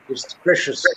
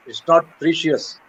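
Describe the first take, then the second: First: "precious" said as presh-us, short e; correct pronunciation. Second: Precious said as pree-shus with a long E; "precious" with an EE sound in the first syllable; wrong pronunciation. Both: Shown as a demonstration. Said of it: "let me correct you on a word".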